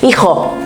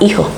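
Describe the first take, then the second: First: The J is strong, guttural and rasping. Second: The J is soft and barely audible. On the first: "la dicen bien fuerte, bien gutural, con bastante fricción" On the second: "decimos la J muy sorda, no se escucha casi"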